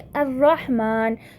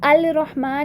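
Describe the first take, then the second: First: The L becomes a doubled R sound. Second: A clear L sound comes before 'Rahman'. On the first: The speaker calls it right. "बल्कि अर्रहमान" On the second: The speaker calls it wrong. "अल रहमान नहीं बोला"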